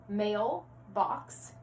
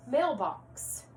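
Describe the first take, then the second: First: "Mailbox" split as mail, pause, box; segmented compound. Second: Said in the usual way. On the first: Shown as a demonstration. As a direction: say "Mailbox" in two separate parts for joining. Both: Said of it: "going back to compound words".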